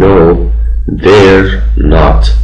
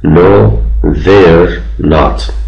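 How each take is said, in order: First: They and are are joined into one syllable. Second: They and are are joined into one syllable.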